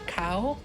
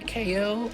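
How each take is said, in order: First: The name is said as one word, cow. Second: The name is said as two letters, K-O. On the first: It follows the French dub's naming. The speaker calls it wrong. "most dubs call him Cow" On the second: It refers to a boxing knockout. The speaker calls it right. "It's supposed to be K O"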